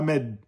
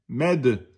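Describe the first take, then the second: First: The final d stops flat without any bounce. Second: The final d is released with an echoing bounce. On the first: The speaker calls it wrong. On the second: The speaker calls it right.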